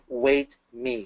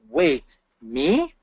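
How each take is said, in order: First: Said as one phrase with no pause. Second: A pause after wait, then me asked.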